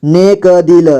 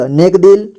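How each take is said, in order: First: नेक दिल with क given its own vowel; syllable by syllable. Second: Said in the usual way. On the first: Shown as a demonstration. Teacher breaking down नेक दिल for learners, syllable by syllable. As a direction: sound out नेक दिल piece by piece. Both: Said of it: "जोड़ जोड़ करके".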